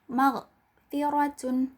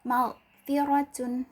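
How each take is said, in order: Both takes have the same delivery.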